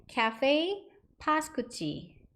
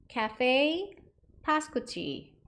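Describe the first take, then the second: The two takes are said the same way.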